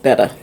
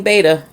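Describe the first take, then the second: First: "betta" said BET-uh, short e; correct pronunciation. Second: "beta" said BAY-tuh; childhood pronunciation. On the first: Fishkeeper giving the actual name, "betta" as BET-uh. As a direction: say "betta" to rhyme with "better". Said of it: "It's actually pronounced betta". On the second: Fishkeeper showing the name learned growing up, "beta" as BAY-tuh. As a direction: say "beta" with a long AY in the first syllable. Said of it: "I grew up saying beta". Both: Shown as a demonstration.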